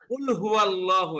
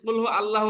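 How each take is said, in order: First: 'Huwa' runs straight into 'Allahu' without a break. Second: 'Hu' and 'Allah' are said as separate words. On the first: The speaker calls it right. "এই যে হুয়া ওয়াওয়ের কবর দিয়ে ধরছে আল্লাহর সাথে" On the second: The speaker calls it wrong. "একদিকে কিন্তু ভুল হবে"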